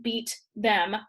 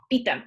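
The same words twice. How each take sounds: First: "beat ... them" as two separate words. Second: "beat them" squashed into one quick word; run together. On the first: Teacher showing what the command is not, "beat ... them" split in two. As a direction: say "beat", pause, then "them". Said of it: "are two separate words". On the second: Teacher showing the pronoun attached, "beat them" said as one word. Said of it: "all in one word". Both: Shown as a demonstration.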